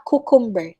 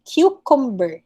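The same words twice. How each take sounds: First: "cucumber" as KOO-kum-ber; no Y glide in "cucumber", koo; wrong pronunciation. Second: "Cucumber" as KYOO-kum-ber; correct pronunciation. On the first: Teacher showing what to avoid, koo-kum-ber. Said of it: "not cucumber". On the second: Teacher modelling the right form, kyoo-kum-ber. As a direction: begin "Cucumber" with a Y glide, kyoo. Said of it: "It's cucumber". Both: Shown as a demonstration.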